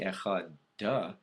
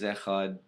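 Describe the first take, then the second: First: The final D is released with an 'uh'. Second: The final D ends with no added vowel. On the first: The speaker calls it wrong. "it does not say echad duh" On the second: The speaker calls it right. "The word is echad with a silent D"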